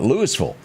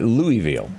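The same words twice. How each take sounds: First: The name is said the local way. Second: The name is said the Kentucky way. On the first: This is how people nearby say it. "Here locally, we call it" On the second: This is how people in Kentucky say it. "just a due f- north of Nashville, they call it"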